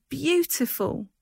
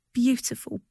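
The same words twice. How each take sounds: First: Drawn-out high, slow beautiful; rapturous cry. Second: Bright, lifted cry of delight. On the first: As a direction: let beautiful float up, slowly. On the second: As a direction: gush over the flowers. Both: A narrator's reading. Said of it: "she cried".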